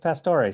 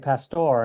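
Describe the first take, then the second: First: The name ends with an extra final vowel sound. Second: The name ends without a final vowel sound. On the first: The speaker calls it right. "no, I think it's Pastore" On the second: The speaker calls it wrong. "I want to say Pastor"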